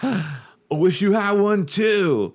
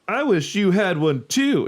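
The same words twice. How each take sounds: First: It is said in a put-on surfer voice. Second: It is said in a plain, non-surfer voice.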